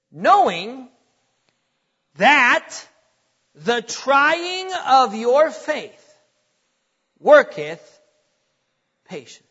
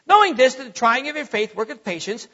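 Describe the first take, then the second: First: Each phrase set apart by long pauses; weighty, deliberate reading. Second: Quick run-on recitation; rushed Bible reading. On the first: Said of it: "get ready, he says this". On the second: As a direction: hurry straight through the verse, no weight on any word. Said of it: "we just read. We just say". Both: Shown as a demonstration.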